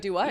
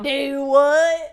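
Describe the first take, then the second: First: It has only a mild Southern accent. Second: It has a strong, exaggerated Southern accent. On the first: This is how the phrase is normally said. "I don't say it aggressively Southern. I just go" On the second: Others are mocking the phrase. "they just like fucking roasted me. They're like"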